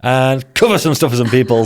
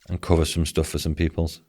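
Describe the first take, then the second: First: It is said in a lively, excited way. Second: It is said in a flat, unexcited way.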